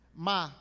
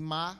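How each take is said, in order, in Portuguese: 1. Ma é dito com o tom que significa maldição. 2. Ma é dito com o tom neutro. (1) "ma maldizer" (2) "ma neutro, tom neutro, é para pergunta"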